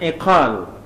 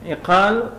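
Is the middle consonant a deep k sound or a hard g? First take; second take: deep k; deep k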